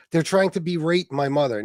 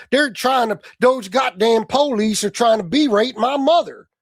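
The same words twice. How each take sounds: First: Said in the usual way. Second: Mock Oklahoma accent. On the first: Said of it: "emphasis on the wrong syllable". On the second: Host mocking Tony's word, exaggerated Oklahoma accent. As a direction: mimic an indignant Oklahoma yokel accent. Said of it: "Fucking Oklahoma?".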